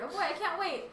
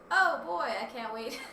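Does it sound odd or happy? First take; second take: happy; odd. First: It is read in a cheerful, happy way. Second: It is read in an odd, unexcited way.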